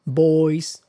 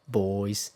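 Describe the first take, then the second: First: Put-on Boys said high and loud, American style; American pronunciation. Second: Put-on boys in British style, in an ordinary pitch; British pronunciation. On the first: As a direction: give the American Boys, higher and louder. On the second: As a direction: give the British boys, matching the American sounds. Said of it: "same in Britain". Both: Shown as a demonstration.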